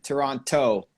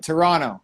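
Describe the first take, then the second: First: The final T sound is clearly pronounced. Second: The final T is skipped, blending into N. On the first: The speaker is not from the city. "people who aren't from the city, always pronounce the last T" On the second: The speaker is a local. "we skip over like Toronto. It's like an extra N"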